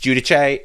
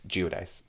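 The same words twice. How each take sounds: First: The name is pronounced the Italian way. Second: The name is pronounced the American way. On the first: "If you ask an Italian, it's Giudice" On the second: "if you are American, it's Giudice"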